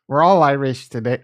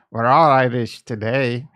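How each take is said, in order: First: Loud, badly faked Irish accent; failed Irish accent. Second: Louder mock Irish accent, slightly improved; attempted Irish accent. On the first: Streamer greeting viewers on Saint Patty's Day, weak Irish accent. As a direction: attempt an Irish accent and miss. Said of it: "I can't do an Irish accent right now". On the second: Streamer retrying for Saint Patty's Day, passable mock Irish accent. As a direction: have another go at an amateur Irish accent. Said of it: "I guess that was kinda better".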